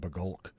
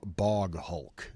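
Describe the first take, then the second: First: The name is run together as one word. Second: The name is said as two separate words. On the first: The speaker calls it wrong. "the Scottish etymology of me just wants to call it a Bagulk" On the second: The speaker calls it right. "But no"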